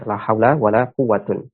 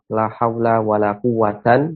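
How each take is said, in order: First: The last word ends in a short u plus n. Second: The last word ends in a short a plus n. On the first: "kita baca dengan uh, rofa" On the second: "bisa kita baca dengan nasab"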